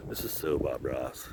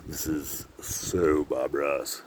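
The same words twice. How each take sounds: First: Low, very soft murmur; quiet aside. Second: Low and soft with a long drawn-out "so"; slow, savoured murmur. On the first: Vlogger to himself admiring the view, quiet aside. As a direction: say it under your breath, low. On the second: Vlogger savouring the painterly view, slow murmur. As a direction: stretch "so" right out, quietly. Repeats it slowly while admiring scenery. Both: Real, not acted.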